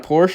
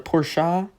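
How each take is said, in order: First: The name is pronounced in a plain way. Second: The name is pronounced in a fancy way. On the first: The speaker calls it wrong. "It's not a Porsche" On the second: The speaker calls it right. "It's supposed to be fancy"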